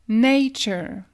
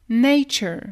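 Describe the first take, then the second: No difference in how they are said.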